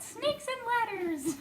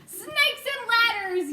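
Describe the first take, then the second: First: Laughing repeat. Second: High, loud, slow yell. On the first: Real, not acted. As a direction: savour the phrase and laugh. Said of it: "I like that". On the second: A narrator's reading. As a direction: bellow it in alarm. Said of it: "yelled the head of the fire department".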